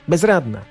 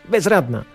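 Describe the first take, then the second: The two takes are said the same way.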